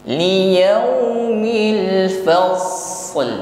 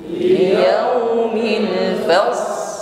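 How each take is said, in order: The two takes are said the same way.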